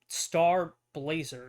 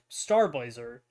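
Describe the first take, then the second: First: It is said slowly, as two separate words. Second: It is said very fast, run together. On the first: The name sounds like two words. The speaker calls it wrong. "It shouldn't be, like" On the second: The name sounds like one word. The speaker calls it right. "you can say it very fast"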